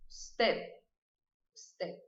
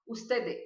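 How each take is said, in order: First: "usted" with the final D almost mute; nearly silent D. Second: "usted" with an extra E after the D, "ustede"; wrong version. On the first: Teacher showing the correct soft ending. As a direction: let the D at the end of "usted" almost vanish. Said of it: "ele é quase mudo". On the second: Teacher imitating a common Brazilian mistake. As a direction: add a vowel at the end of "usted", the wrong way. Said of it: "Eu não vou colocar um E depois". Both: Shown as a demonstration.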